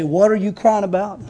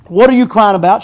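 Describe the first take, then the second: First: Said in the usual way. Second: Louder, pressing repeat. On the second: Shown as a demonstration. Jesus pressing Mary about her tears, louder. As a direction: push the question harder the second time. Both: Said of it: "As if to say".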